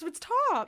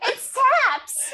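First: Tops with an open o; tops said the standard way. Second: Taps with a flat a, slow and laughing; taps said the Buffalo way. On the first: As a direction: say tops with the o of hot. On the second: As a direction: say taps with the a of cat, stretched out. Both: Shown as a demonstration. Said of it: "do I say tops or".

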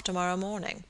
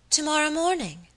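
First: Said in the usual way. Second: Higher-pitched, startled echo; surprised exclamation. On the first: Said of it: "observed Mister Audley with some gravity". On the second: A narrator's reading. My lady hears of her guest's departure, surprised exclamation. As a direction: exclaim it as a sudden, high question. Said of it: "exclaimed my lady, looking up suddenly".

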